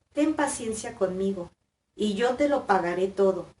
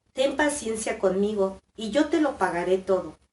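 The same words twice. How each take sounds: The two takes are said the same way.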